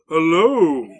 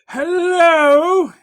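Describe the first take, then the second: First: It is said in a deep baritone. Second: It is said in a high falsetto.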